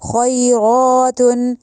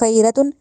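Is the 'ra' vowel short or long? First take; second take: long; short. First: The vowel after 'r' is drawn out long. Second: The vowel after 'r' is short. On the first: The speaker calls it right. "इसको लंबा भी करना है" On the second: The speaker calls it wrong. "खैरतुन नहीं कहना"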